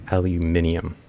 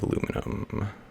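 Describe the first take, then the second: First: The word ends in '-nium'. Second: The word ends in '-num'. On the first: The speaker calls it right. "Or I think it's al alumentium" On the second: The speaker calls it wrong. "I've been saying that wrong for a long time"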